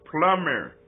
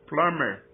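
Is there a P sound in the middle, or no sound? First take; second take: no sound; no sound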